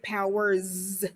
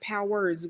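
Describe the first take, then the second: First: The word ends with a buzzing z sound. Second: The word ends with a hissing s sound. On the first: "if you're being very dramatic, powers with a Z" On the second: "powers with an S"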